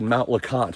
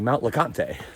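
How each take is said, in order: First: The name is pronounced the plain English way. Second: The name is pronounced the French way. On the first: This is how the speaker has always said it. "I've always said Mount LeConte" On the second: This matches how the name is spelled. "like French"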